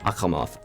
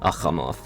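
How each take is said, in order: First: The middle consonant is a raspy throat fricative. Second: The same.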